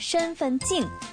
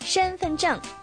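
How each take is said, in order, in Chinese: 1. 用的是不标准的、带口音的发音。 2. 用的是标准普通话的发音。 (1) "不要说成身份证" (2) "身份证不要说成"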